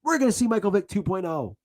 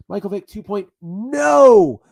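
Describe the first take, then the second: First: Said in the usual way. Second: Slow and loud, punching no in Michael Vick two point no; stress on no. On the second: Shown as a demonstration. Fan mocking his own hope, stress on no. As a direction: hit no hard as a sarcastic twist.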